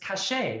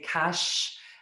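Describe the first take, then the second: First: The name is said as two syllables. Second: The name is said as one syllable. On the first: The speaker calls it right. "it's cachet, right?" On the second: The speaker calls it wrong. "I've been saying your last name wrong"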